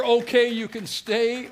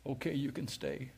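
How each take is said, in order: First: Sweetest words. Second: Softer and lower, a gentle inner voice; God's quiet answer. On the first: Preacher savoring God's release to the congregation, slow and joyful. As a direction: stretch each word out like sweet relief. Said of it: "was the sweetest words". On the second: Preacher recalling God speaking in his spirit, soft and low. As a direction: lay it down softly like a voice inside. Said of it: "God said this in my spirit". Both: Retold or imitated.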